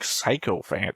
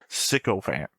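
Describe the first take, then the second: First: The word begins with a 'sike' sound. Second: The word begins with a 'sick' sound. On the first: The speaker calls it wrong. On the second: The speaker calls it right.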